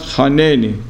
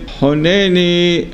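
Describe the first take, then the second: First: The first vowel is an 'a' sound. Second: The first vowel is an 'o' sound. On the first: The speaker calls it wrong. "not haneni" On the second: The speaker calls it right. "and then honeni Hashem"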